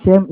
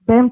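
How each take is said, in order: First: "Shem" with an sh at the start; English "Shem", opening on a hushing sh; English pronunciation. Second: "Sem" with a plain s at the start; Tagalog pronunciation. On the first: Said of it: "Shem English". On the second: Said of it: "Sem Tagalog". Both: Shown as a demonstration.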